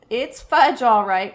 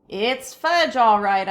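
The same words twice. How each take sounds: First: Put-on a toddler parroting his brother; toddler echo. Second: Said in the usual way. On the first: A narrator's reading. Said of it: "my brother repeated".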